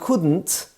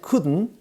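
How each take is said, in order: First: The final T is clearly pronounced. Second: The final T is not pronounced. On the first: "instead of saying couldn't" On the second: "without the T at the end"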